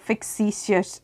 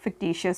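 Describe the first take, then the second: First: The middle of the word sounds like 'ks'. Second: The middle of the word sounds like 'kt'. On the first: The speaker calls it wrong. "It's not a फिक्सिशियस assets" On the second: The speaker calls it right. "It's a फिक्टिशियस"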